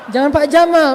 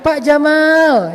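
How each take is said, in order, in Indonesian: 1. Vokal dalam Jamal pendek. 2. Vokal dalam Jamal dipanjangkan. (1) "Jangan Pak Jamal, Pak Onta" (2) "Kok panjang sih? Biar benar, Bapak keren"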